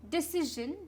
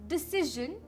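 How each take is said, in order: Both takes have the same delivery.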